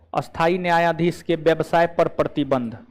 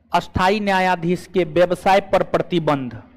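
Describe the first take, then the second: The two takes are said the same way.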